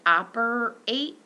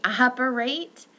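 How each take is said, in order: First: Slow, drawn-out operate with a clear A; demo vowel sound. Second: Operate said again, clearly; corrected demo word. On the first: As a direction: stretch out operate slowly. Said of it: "this sound is going to be in the words like". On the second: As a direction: repeat operate carefully. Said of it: "excuse me, operate". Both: Shown as a demonstration.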